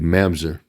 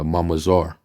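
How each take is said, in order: First: The word is said with an English pronunciation. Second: The word is said with a Hebrew pronunciation. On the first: The speaker calls it wrong. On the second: The speaker calls it right.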